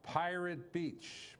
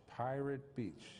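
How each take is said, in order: First: Pirate Beach drawn out slowly and higher; slow emphatic name. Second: Said in the usual way. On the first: Shown as a demonstration. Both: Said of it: "Oh, I get it".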